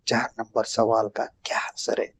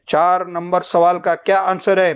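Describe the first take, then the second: First: It is said in a quiet voice. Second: It is said in a loud voice. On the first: The speaker calls it right. "आवाज का tempo नीचे रखते, धीरे से बोलते हैं" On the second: The speaker calls it wrong. "ऐसा बड़े से बोलते हैं क्या?"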